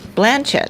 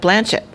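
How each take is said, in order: First: The stress is on the first syllable. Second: The stress is on the second syllable. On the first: The speaker calls it right. "You put the the uh, accent on the first syllable" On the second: The speaker calls it wrong.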